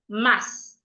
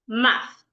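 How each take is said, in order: First: The word ends with a hissing s sound. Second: The word ends with a breathy th sound. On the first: The speaker calls it wrong. "an average person will pronounce it as mass" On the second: The speaker calls it right. "rightly pronounced math"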